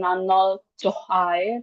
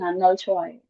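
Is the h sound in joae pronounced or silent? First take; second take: pronounced; silent. First: The h sound is pronounced in the word. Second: The h sound is left silent in the word. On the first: The speaker calls it wrong. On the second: The speaker calls it right.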